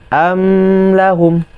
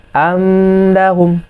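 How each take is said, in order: First: The m sound flows on and is prolonged. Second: The m sound flows on and is prolonged.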